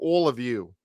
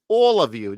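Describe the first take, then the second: First: It is said in his ordinary accent. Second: It is said in a New York accent.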